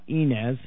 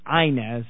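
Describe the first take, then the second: First: The name is said in a fancy, elitist-sounding way. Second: The name is said the plain, local way. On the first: The speaker sounds like an outsider putting on airs. The speaker calls it wrong. "not Inez, and that I shouldn't sound like an elitist" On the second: This is how the town's people say it. The speaker calls it right. "informs me it's Inez"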